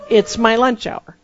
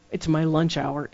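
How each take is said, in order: First: Louder, higher, slow comic complaint; exasperated retold outburst, played for laughs; mock protest. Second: Said in the usual way. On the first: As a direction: protest it loudly, spelling out each word slowly. Same thought repeated as comic protest.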